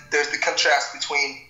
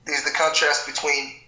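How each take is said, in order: Both takes have the same delivery.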